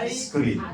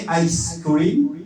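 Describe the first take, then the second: First: Ice cream divided as ai, skriim; near-identical phrases. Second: Ice cream divided as ais, kriim; slow two-word ice cream; near-identical phrases. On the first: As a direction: move the s onto cream, I scream. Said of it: "tapi beda mana". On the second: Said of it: "Hampir sama, tapi beda". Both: Shown as a demonstration. Teacher likens it to the verse, shifted word break.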